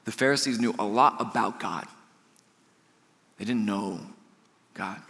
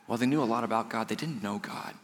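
First: "knew a lot" level, long pauses before "didn't know" and "God"; slow emphatic repeat. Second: "knew" said quickly, "didn't know God" dropped much softer; stress on know. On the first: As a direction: pause then drop on "God". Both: Shown as a demonstration. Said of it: "let me say that one more time".

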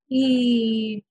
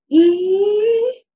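First: "ee" easing down on the out-breath; exhalation phonation. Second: Loud, high rising "ee" on an in-breath; inhalation phonation. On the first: Clinician repeats the exercise, exhaled descending "ee". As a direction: let a long "ee" sink as you breathe out. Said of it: "come back down on that exhalation". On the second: Clinician repeats the exercise, high inhaled "ee". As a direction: pull "ee" up high while breathing in. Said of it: "produce voice on an inhalation". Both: Shown as a demonstration.

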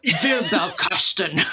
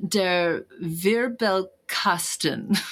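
First: Slow German, a bit more serious; Wirbelkasten, drawn out with mock gravity; German word. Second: Slow careful German pronunciation; German word. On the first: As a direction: say Wirbelkasten slowly, laughing into it. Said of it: "German is serious". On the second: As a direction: spell out der Wirbelkasten slowly. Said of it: "Oh, my mom would be so ashamed". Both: Shown as a demonstration.

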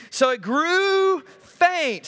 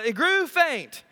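First: Drawn out, high and slow, hammed-up swoon; milk the fainting for laughs; mock-dramatic swoon. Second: Said in the usual way. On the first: Shown as a demonstration. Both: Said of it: "Sorry, I added that".

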